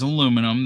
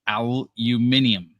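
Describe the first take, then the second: First: It is said with four syllables, ending -num. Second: It is said with five syllables, ending -nium. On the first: "Pronunciation for American is" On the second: "The pronunciation for the British is"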